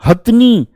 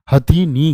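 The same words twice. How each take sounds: First: हथनी with no vowel after थ; short wrong form. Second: हथीनी with a clear ee after थ; correct full form. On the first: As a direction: run हथ straight into नी in हथनी. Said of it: "नहीं भैया". (हथनी को बिना ई के, छोटा बोलें) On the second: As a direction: sound all three syllables, ha-thee-nee, in हथीनी. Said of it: "क्या होता है?". (हथीनी में थी साफ़ बोलें) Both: Shown as a demonstration.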